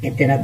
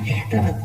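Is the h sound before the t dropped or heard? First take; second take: dropped; heard. First: The h sound before the t is dropped. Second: An h sound is heard before the t. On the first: The speaker calls it wrong. "এতেরাত না এহতেরাত" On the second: The speaker calls it right. "একটু শুদ্ধ করে বললে হবে এহতেরাত"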